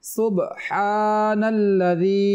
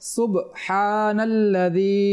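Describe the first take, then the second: First: The b is closed with a short bouncing stop. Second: The b is closed with a short bouncing stop.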